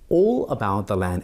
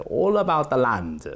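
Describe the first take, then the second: First: Said in the usual way. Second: Put-on lilting, lightly Italian-accented quote; slight Italian accent. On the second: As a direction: imitate an Italian-accented professor. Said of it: "he had a slight Italian accent".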